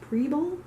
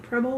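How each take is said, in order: First: The first vowel is a long 'ee' sound. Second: The first vowel is a short 'eh' sound. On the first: The speaker calls it right. "so I'm guessing it's Preble" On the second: The speaker calls it wrong. "would be with two B's"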